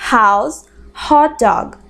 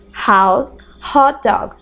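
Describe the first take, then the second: No difference in how they are said.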